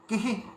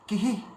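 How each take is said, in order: Both takes have the same delivery.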